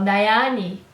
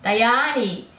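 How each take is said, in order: The two takes are said the same way.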